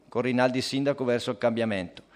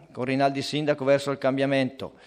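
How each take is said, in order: No difference in how they are said.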